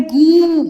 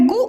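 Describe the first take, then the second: First: गु held as "gooo"; गु with a long, pushed oo; long vowel. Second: गु as a quick "gu"; गु cut short; short vowel. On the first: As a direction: drag out the vowel of गु loudly. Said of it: "उच्चारण में समय लग रहा". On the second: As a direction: keep the u in गु brief. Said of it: "छोटा ओ में गु". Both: Shown as a demonstration.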